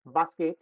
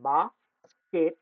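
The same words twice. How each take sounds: First: Said in the usual way. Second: basket very slowly, split after বাস; basket with a clear gap between its syllables; syllable division. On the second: Shown as a demonstration. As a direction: break basket into two drawn-out syllables, বাস and কেট. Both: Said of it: "syllable division নিয়ে আলোচনা".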